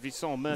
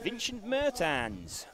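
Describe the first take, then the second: First: It is said in a French accent. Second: It is said in a Dutch-sounding accent.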